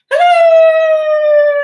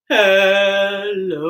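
First: It is said in a high voice. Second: It is said in a low voice.

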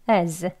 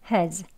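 First: It has a weak vowel, h dropped. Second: It has a weak vowel, h kept. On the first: "weak 약하게" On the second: "weak 약하게 has"

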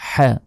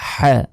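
Both takes have the same delivery.

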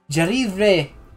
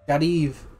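First: A final vowel sound is pronounced at the end. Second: No final vowel sound is pronounced at the end. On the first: The speaker calls it wrong. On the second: The speaker calls it right.

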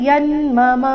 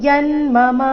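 No difference in how they are said.

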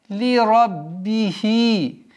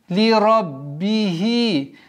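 Both takes have the same delivery.

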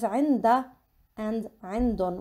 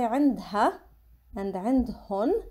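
First: The h sound is dropped in both words. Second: The h sound is pronounced in both words. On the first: This is the usual Lebanese way of saying it. "mainly in Lebanon we pronounce it as عندا and عندن. We don't really pronounce the ha" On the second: This is how some other speakers say it. "some people say عندها and عندهن"

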